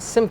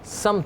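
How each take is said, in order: First: The first syllable is said as 'sim'. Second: The first syllable is said as 'sam'. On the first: The speaker calls it wrong. "सिमत नहीं होता" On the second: The speaker calls it right. "समत होता है"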